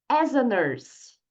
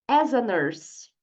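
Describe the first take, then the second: Both takes have the same delivery.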